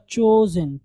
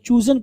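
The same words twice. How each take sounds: First: चोज़न with a long o; correct CHOSEN. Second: चूज़न with a long oo vowel; mispronounced CHOOSEN. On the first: Teacher correcting learners' misreading, चोज़न pronounced with a clear o. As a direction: say चोज़न with o, not oo. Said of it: "चूज़न नहीं होगा". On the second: Teacher showing learners the common wrong चूज़न, oo-sound mispronunciation. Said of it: "लोग इसको गलत पढ़ते हैं". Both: Shown as a demonstration.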